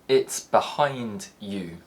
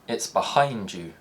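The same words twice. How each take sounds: First: The d and y sounds stay distinct. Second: The d and y merge into a j sound.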